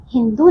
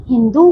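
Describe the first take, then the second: First: हिंदू with a short final "du"; mispronounced word. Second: हिंदू with a long final "doo"; correct pronunciation. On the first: Teacher shows pupils the wrong word, mispronounced. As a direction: cut the last vowel of हिंदू short. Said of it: "नहीं". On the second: Teacher corrects the word for pupils, properly pronounced. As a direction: hold the last vowel of हिंदू long. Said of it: "हिंदू होता है". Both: Shown as a demonstration.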